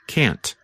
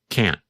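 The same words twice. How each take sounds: First: The final T is clearly released. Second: The final T is barely heard. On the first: "simply pronounce the letter T" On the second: "because the tongue and voice stop"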